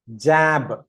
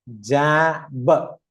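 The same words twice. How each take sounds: First: Said in the usual way. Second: "ജാബ്" drawn out in two parts, "jaa - buh"; stretched blend. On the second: Shown as a demonstration. Teacher blends for learners, slow "jaa - buh". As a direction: hold the vowel, then add a separate "buh" in "ജാബ്". Blending letter sounds into a word.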